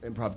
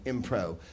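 First: The word ends with a v sound. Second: The word ends without a v sound.

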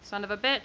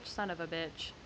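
First: It is said at a louder volume. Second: It is said at a quieter volume.

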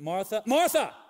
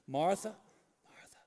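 First: It is said sharply and sternly. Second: It is said softly and gently.

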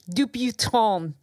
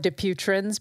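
First: The name is said with a French pronunciation. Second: The name is said with an American pronunciation. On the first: "but it's actually, it's French" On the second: "here in the United States, we call it Dupuytren's"

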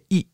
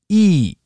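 First: The vowel is short. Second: The vowel is long. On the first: The speaker calls it wrong. "You don't say E" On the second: The speaker calls it right. "You say E. You lengthen it"

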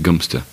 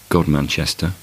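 First: The name is said like 'Gumster'. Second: The name is said the way it is spelled. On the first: The speaker calls it right. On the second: The speaker calls it wrong.

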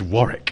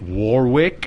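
First: The w in the middle is silent. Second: The w in the middle is pronounced. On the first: The speaker calls it right. "I know it has a W in the middle, but you don't say it" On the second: The speaker calls it wrong. "close, but not quite"

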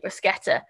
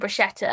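First: The middle consonant is a hard 'sk' sound. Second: The middle consonant is a soft 'sh' sound. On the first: The speaker calls it right. "it's actually bruschetta" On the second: The speaker calls it wrong. "people are always like, oh, can I have some bruschetta?"

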